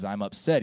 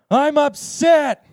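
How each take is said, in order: First: Said in the usual way. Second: High, drawn-out full-voice yell; louder. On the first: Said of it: "He's like, "Louder!". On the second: Retold or imitated. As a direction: belt it out slowly, imitating a humiliated student.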